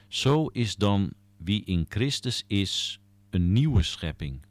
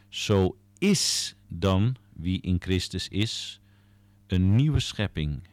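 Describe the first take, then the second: First: The word 'is' carries no special stress. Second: The word 'is' carries strong stress.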